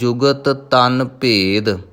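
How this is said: There is a short pause between the two words. The speaker calls it right. "ਥੋੜ੍ਹਾ ਜਿਹਾ ਰੁਕ ਕੇ"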